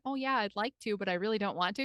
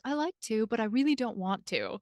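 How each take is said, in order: First: It is said in a Midwestern accent. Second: It is said in a British accent.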